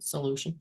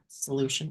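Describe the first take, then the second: First: The first syllable sounds like 'soul'. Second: The first syllable sounds like 'sol'. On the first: The speaker calls it right. "but solution" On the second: The speaker calls it wrong. "not solution"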